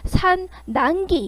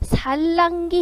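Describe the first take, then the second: First: The middle consonants are both n sounds. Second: The middle consonants are both l sounds. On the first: The speaker calls it wrong. "이렇게 발음 안 하잖아" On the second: The speaker calls it right. "바로 살랑기 이렇게 나죠"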